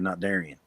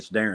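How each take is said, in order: First: The name is said like Darian. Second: The name is said like Darren. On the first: The speaker calls it wrong. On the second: The speaker calls it right.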